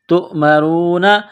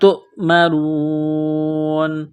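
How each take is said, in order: First: The word ends with a voiced 'na' syllable. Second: The word ends with a silent final n. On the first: "नून ज़बर ना" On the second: "जब स्टॉप करेंगे तो नून को साइलेंट करेंगे।"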